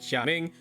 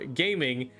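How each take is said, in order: First: The name does not sound like gaming. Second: The name sounds like the English word gaming. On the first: This is the name's actual pronunciation. The speaker calls it right. "his name is actually pronounced like Xiaming" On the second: This is the version used by the English dub. The speaker calls it wrong. "as the English dub decided to call it"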